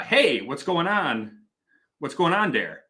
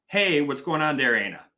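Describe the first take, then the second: First: Imitating a Green Bay, Wisconsin accent; drawn-out northern Wisconsin accent on a casual greeting. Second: Imitating old Milwaukee dialect; casual Milwaukee-accented greeting. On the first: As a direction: greet like someone from up in Oshkosh, Wisconsin. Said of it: "if you go up to, like, Oshkosh or, like, Green Bay". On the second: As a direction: greet like a Milwaukee local, tag question tacked on. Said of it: "Milwaukee dialect is, is different". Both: Shown as a demonstration.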